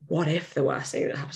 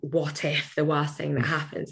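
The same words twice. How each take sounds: First: It sounds open and genuinely questioning. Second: It sounds worried and dreading. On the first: The speaker calmly asks what the outcome would be. The speaker calls it right. "what I love with a what if is changing the tone" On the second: The speaker fears a disaster. The speaker calls it wrong. "instead of going"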